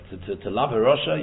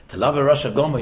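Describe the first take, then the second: First: Said in the usual way. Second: "Rasha Gomer" louder, pushed hard; emphatic restatement. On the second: Real, not acted. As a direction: drive home "Rasha Gomer".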